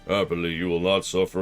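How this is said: It is said in a put-on character voice.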